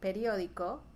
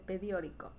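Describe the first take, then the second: First: The r comes before the d. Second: The d comes before the r. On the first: The speaker calls it right. "En lugar de decir periódico" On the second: The speaker calls it wrong. "la gente dice pediórico"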